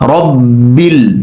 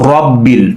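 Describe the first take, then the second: First: The first vowel is said with relaxed lips. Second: The first vowel is said with rounded lips. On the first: The speaker calls it right. "ঠোঁট গোল হবে না, স্বাভাবিক থাকবে" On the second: The speaker calls it wrong. "ঠোঁটটা গোল হয়ে যায়"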